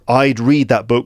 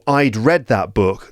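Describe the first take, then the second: First: Read is said with a long 'ee' vowel. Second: Read is said with a short 'e' vowel. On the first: It means I would read that book. "would be I would read that book" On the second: It means I had already read that book. "That would be I had read that book"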